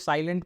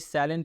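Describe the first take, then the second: First: It sounds like the word 'silent', two syllables. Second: It sounds like 'salient', with three syllables. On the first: The speaker calls it wrong. "बहुत लोग इसको साइलेंट पढ़ रहे होंगे, बिल्कुल नहीं" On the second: The speaker calls it right. "ये साइलेंट है"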